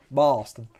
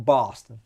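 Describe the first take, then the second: First: Bahston with a broad Boston accent. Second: Said in the usual way. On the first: Shown as a demonstration. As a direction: say Boston like a Boston local. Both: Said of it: "such a bad Boston accent".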